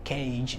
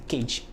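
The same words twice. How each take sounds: First: CAGE with the vowel held, gliding to i; sustained diphthong. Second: CAGE cut short, a single e without glide; short vowel. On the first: Teacher contrasting the right form, long gliding CAGE. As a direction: stretch the ay-ee inside CAGE. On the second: Teacher showing what not to say, short CAGE. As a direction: say CAGE as a quick "kedge". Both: Shown as a demonstration. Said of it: "It's not short".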